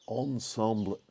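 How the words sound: The word is said with a French accent. "I said ensemble with a kind of French accent"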